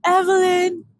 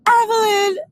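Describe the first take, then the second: First: A hint of a cocky, self-assured dude; smug friend. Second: High, loud, whining call of her name; whiny pleading friend. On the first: Imitating her friend calling Evelyn, mildly smug. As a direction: say her name like a confident guy. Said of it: "this is how he talks when he says it too". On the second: Retold or imitated. Mocking her friend whining Evelyn, high and loud. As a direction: whine her name like a hurt puppy. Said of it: "what I hear is this voice".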